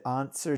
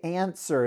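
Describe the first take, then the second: First: The first vowel is broad British, open and back. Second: The first vowel is flat American and nasal. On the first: The speaker calls it right. "couldn't you have done that again and just said answer?" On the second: The speaker calls it wrong. "it sounds like you're plugging your nose"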